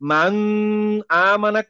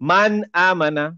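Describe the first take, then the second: First: The n is held with a nasal hum. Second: The n is pronounced clearly without nasal hum. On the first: The speaker calls it wrong. "আমি কোন রকমের মান আমানা করলেই ভুল" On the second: The speaker calls it right. "তাহলে এই নুনের উচ্চারণটা ক্লিয়ার হবে"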